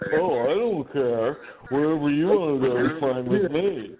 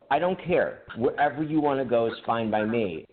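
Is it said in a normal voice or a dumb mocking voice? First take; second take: dumb mocking; normal. First: It is said in a dumb man voice. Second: It is said in his normal voice.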